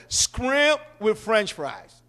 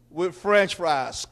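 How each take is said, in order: First: Slow, drawn-out Shrimp with French fries. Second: Slow, drawn-out French fries; drawn-out order. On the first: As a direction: lean into Shrimp, drag the order out. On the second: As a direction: stretch out with French fries lazily. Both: Shown as a demonstration.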